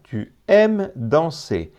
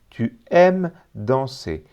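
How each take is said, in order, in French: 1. Le 's' final est muet ; danser finit par 'e'. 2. Le 's' final est muet ; danser finit par 'e'.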